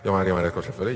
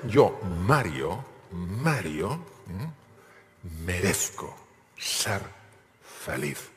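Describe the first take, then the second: First: It is said weakly, without force. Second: It is said forcefully, with conviction.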